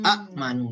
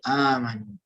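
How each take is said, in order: First: A short first vowel, then a glottal stop. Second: A long first vowel with no glottal stop. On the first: This is the underlying form. "A'manu harusnya" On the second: This is the form actually used. "tapi dipanjangkan jadi amanu"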